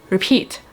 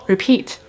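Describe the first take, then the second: No difference in how they are said.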